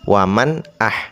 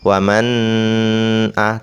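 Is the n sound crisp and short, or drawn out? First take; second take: crisp; drawn out. First: The n sound is crisp, clear and short. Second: The n sound is blurred and drawn out. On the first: The speaker calls it right. "harus jelas mannya" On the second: The speaker calls it wrong. "tidak boleh"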